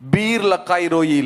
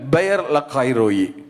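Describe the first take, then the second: First: The first word is said as one syllable. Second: The first word is said as two syllables. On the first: The speaker calls it wrong. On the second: The speaker calls it right.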